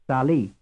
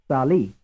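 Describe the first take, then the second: No difference in how they are said.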